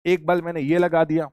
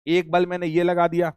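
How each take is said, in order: Both takes have the same delivery.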